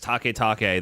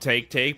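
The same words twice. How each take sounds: First: The name is pronounced with imitated Japanese sounds. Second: The name is pronounced with plain American English sounds. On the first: The speaker pretends to know how the name is said. The speaker calls it wrong. "make some uneducated guess to assume a Japanese pronunciation" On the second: The name is read as spelled, without guessing. The speaker calls it right. "I read the words as I see them"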